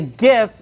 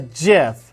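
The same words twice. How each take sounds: First: It begins with a hard g sound. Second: It begins with a soft j sound. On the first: The speaker calls it right. "So I call it a GIF" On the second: The speaker calls it wrong. "not a GIF"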